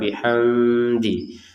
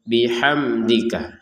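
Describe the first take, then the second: First: The m sound is faint and blurred. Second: The m sound is crisp and clear. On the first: The speaker calls it wrong. "jangan sampai ada samar" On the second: The speaker calls it right. "Huruf mim sukun di sini kita baca dengan jelas"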